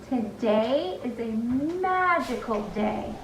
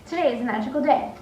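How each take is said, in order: First: It is said at a normal pace. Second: It is said very fast.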